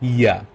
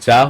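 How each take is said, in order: First: It begins with a 'y' sound. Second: It begins with an English 'j' sound. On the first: The speaker calls it right. "German আমরা বলবো ইয়া" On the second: The speaker calls it wrong. "ইংলিশে যদি বলতাম এটা যা হতো"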